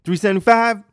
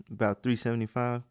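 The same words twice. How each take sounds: First: Very high, blaring incredulous echo; loud obnoxious customer. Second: Said in the usual way. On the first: Retold or imitated. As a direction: shout the price back in disbelief. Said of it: "be that loud and obnoxious".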